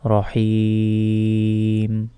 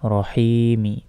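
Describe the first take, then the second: First: The word ends on the m with no vowel. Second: A short vowel is sounded after the final m. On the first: The reciter stops at this word. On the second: The recitation continues without stopping.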